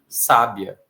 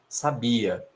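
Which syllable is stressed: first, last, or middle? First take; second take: first; middle. First: The stress is on the first syllable. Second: The stress is on the middle syllable. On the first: "essa palavra também poderia ser sábia" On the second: "isso aqui é sabia"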